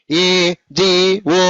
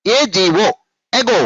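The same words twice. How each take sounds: First: ఏజీఓ slow, each letter apart; divided letters. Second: ఏజీఓ run together as one unit; joined letters. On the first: Teacher showing pupils what not to say, ఏజీఓ slowly divided. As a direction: break ఏజీఓ up with gaps between letters. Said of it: "అనరాదు". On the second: Teacher modelling spelling for pupils, ఏజీఓ joined without breaks. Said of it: "అన్ని కలిపేసి చెప్పేస్తూ ఉండాలి". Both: Shown as a demonstration.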